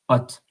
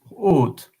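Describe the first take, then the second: First: The vowel is short and open, like 'hot'. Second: The vowel is long and closed, like 'oat'. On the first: "Without the accent, it's hot" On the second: "But with the accent, haute"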